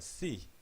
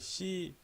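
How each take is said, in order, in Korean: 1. 's' 소리는 부드럽고 숨이 섞여 있습니다. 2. 's' 소리는 긴장되고 팽팽합니다. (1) "C예요" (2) "이걸 심지어 대부분 방송에서도 쌍시옷으로 발음합니다"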